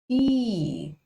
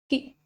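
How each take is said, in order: First: The vowel is long and strong. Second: The vowel is short.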